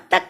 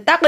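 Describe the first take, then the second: First: तक closed cleanly on क; correct unbounced K. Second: तक with an echo after क; wrongly bounced K. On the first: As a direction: stop on क in तक with no echo. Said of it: "इस पे कलकला करना". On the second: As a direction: release क with a bounce in तक. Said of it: "तक नहीं पढ़ना". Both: Shown as a demonstration.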